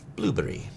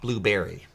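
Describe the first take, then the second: First: It is said with a British accent. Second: It is said with an American accent.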